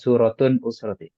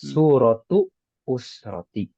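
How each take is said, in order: First: The first word ends with an 'n' sound. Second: The first word ends without an 'n' sound. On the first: The speaker calls it wrong. "bukan suratun usroti" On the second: The speaker calls it right. "jangan dibaca tanwin"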